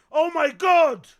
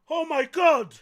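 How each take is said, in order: Both takes have the same delivery.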